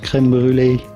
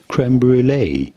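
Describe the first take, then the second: First: It is said with a French accent. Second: It is said with an English accent.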